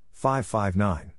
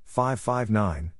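The two takes are said the same way.

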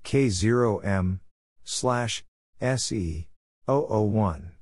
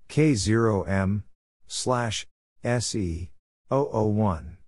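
No difference in how they are said.

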